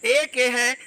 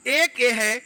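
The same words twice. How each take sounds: The two takes are said the same way.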